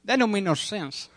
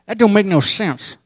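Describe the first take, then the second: First: Delmar impression. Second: Higher, louder, through closed teeth like Delmar; Delmar impression. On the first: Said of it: "That's my Delmar". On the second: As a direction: say it without opening the mouth. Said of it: "he's like".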